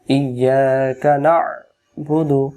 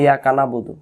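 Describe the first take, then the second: First: Slow ইয়াকা না'বুদু, squeezing the throat at the end of না; throat-pressed Ain. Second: Quick ইয়াকা না'বুদু with no throat catch after না; dropped Ain. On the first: Teacher gives Surah Fatiha as example, slow with throat-pressed না'বুদু. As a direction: recite ইয়াকা না'বুদু slowly with a held, tight Ain after না. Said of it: "এই আইন অক্ষরটা গলা চাপ দিতে হবে". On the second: Teacher mimics the common mistake, fast ইয়াকা না'বুদু without Ain. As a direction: run না straight into বুদু, leaving out the Ain. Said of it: "তখন আইন অক্ষর বাদ চলে যায়".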